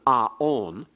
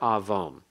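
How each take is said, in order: First: No consonant is heard between the two vowels. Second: A v sound is heard between the vowels. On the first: The letter is read as a vowel. "to be pronounced only as on" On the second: The letter is read as a consonant, as in modern Hebrew. "a W or a V here"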